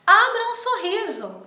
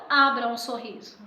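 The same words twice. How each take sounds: First: "Abra um sorriso" exclamado, alto e agudo; exclamação. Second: Said in the usual way. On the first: Shown as a demonstration. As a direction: diga "Abra um sorriso" com entusiasmo, em tom de exclamação. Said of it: "substituiríamos o título". ("Abra um sorriso" com ponto de exclamação, animado) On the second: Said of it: "não".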